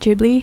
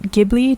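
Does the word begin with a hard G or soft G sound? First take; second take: soft G; hard G. First: It begins with a soft j-like sound. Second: It begins with a hard g sound. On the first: "soft G" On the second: "hard G"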